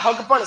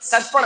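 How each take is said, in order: First: The word begins with an h sound. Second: The word begins with an s sound.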